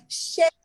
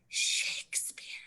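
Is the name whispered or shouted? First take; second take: shouted; whispered. First: The name is shouted loudly. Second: The name is whispered.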